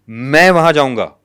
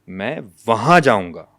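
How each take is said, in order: First: The first word carries the main stress. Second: The second word carries the main stress. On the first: The person going is what matters. "यानी मेरा जाना important है।" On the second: The place is what matters. "अब दूसरा लफ्ज है वहां।"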